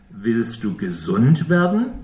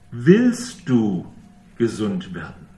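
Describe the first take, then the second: First: A real, open question that rises on "werden"; rising question. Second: A probing "Willst du", as if doubting the will; stress on WILLST. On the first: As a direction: ask "Willst du gesund werden?" with the tune climbing on "werden". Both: Shown as a demonstration. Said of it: "Sie hören ja den Unterschied".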